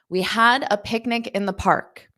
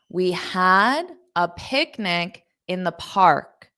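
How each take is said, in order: First: The sentence is spoken at a fast pace. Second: The sentence is spoken at a slow pace. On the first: "I'll say it fast" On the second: "Now I'll say it slower"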